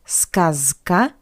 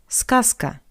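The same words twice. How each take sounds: First: The consonant before k is a voiced z. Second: The consonant before k is a voiceless s. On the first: The speaker calls it wrong. "Not сказка" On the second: The speaker calls it right. "but сказка"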